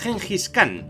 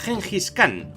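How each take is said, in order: First: The name is said with Spanish pronunciation. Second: The same.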